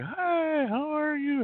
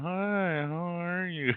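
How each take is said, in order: First: It sounds cheerful and full of energy. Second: It sounds downcast and low in energy.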